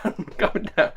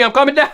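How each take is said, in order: First: "I'm coming down" said much softer through a laugh; laughing quieter. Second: Said in the usual way. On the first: Real, not acted. Vlogger calming himself after a rant, soft laughing. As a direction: settle down, soft and chuckling.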